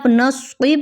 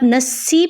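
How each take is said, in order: First: The s sound is heavy and deep. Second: The s sound is plain and light. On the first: The speaker calls it right. "स्वाद की आवाज़ को आप सही से अदा कर रहे हैं" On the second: The speaker calls it wrong. "आप सीन की आवाज़ कर रहे हैं"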